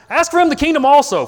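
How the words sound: It is said in a loud, angry, yelling tone. The speaker is an immature child throwing a tantrum. "He could sound like this immature kid stomping his feet around, yelling"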